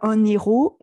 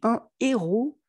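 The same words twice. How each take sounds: First: An n sound links into héros. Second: No linking sound comes before héros. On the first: The speaker calls it wrong. "On ne dit pas" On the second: The speaker calls it right. "On dit"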